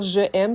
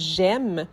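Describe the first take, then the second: First: The 'je' keeps its vowel before 'aime'. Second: The vowel of 'je' is dropped before 'aime'. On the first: The speaker calls it wrong. "on va jamais dire je aime, ça serait une erreur" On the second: The speaker calls it right.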